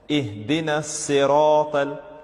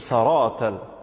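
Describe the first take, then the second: First: The first vowel is an 'i' sound. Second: The first vowel is an 'a' sound. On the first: The speaker calls it right. "The right way to read it is with a kasra over the letter sad" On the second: The speaker calls it wrong. "So saratal, that's wrong"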